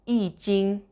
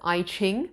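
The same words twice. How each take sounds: First: It is pronounced the way Mandarin speakers say it. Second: It is pronounced the way English speakers say it. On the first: "That's the correct pronunciation in Mandarin" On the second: "as people normally say in English"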